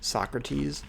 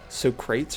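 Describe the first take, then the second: First: The stress falls where English speakers usually put it. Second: The stress falls where Greek speakers reportedly put it. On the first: The speaker calls it wrong. "everyone at least in English, right, says Socrates" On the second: The speaker calls it right. "apparently it's like Socrates or something"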